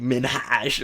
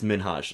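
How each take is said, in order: First: The name is said with a heavy H sound. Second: The name is said with a light H sound. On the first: The speaker calls it wrong. "I don't want to hit the the H too hard" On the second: The speaker calls it right. "it's Minhaj like there's an H there"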